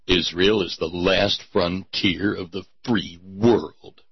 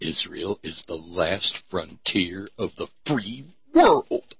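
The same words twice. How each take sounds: First: Low solemn pronouncement; grave slogan read. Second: Low, soft, weighty syllable-by-syllable delivery; Charlton Heston emphasis. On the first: Acted. First solemn reading of the slogan. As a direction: intone it like a trailer narrator. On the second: Shown as a demonstration. Demonstrating the slogan in Charlton Heston style. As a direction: lean on each syllable like an epic hero. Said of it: "say it with that Charlton Heston sort of emphasis on the syllables".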